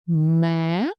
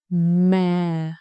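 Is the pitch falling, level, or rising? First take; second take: rising; falling. First: The pitch starts low and rises sharply. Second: The pitch goes down and stays low. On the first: "you must start low and go up slowly and sharply" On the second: "You just go down and stay low"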